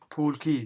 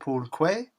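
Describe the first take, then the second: First: The second word sounds like 'key'. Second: The second word sounds like 'kway'. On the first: The speaker calls it right. "you know Quay is pronounced Key" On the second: The speaker calls it wrong. "Viraj pronounced it Pool Quay"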